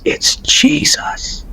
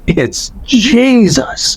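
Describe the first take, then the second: First: Slow, hushed whisper of awe; whispering it, stunned; awed whisper. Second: Slow, higher voiced cry of wonder; stunned recognition, aloud; awed. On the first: Retold or imitated. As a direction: breathe the name in wonder, slowly. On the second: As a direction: let it out slowly, falling in awe. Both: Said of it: "all I could say was".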